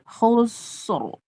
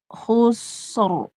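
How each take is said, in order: Both takes have the same delivery.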